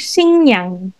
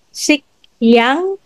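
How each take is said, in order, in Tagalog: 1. Ang unang pantig ay nagtatapos sa tunog na ng. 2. Ang unang pantig ay nagtatapos sa tunog na k. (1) "Magiging Xingyang" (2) "hindi siya Xikyang"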